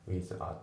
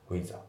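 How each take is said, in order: First: "ウィザー" as two separate words, with, then a; unlinked words. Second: "ウィザー" run together as one word; linked sounds. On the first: Teacher showing learners what to avoid, unlinked "ウィザー". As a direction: keep the a of "ウィザー" apart. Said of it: "じゃなくて". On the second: Teacher demonstrating linking to learners, linked "ウィザー". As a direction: link with and a into "ウィザー". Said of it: "リンキングで". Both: Shown as a demonstration.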